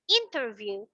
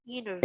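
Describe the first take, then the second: First: The t after the n is pronounced. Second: The t after the n is dropped. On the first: It is the standard careful pronunciation. "it's still correct" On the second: It sounds like a native or more advanced speaker. "Without the t- t- interview, like they they pronounce it like that"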